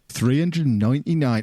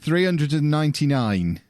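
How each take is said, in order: First: It is said in a broad rural accent. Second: It is said in a more neutral accent. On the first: The speaker calls it wrong. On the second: The speaker calls it right.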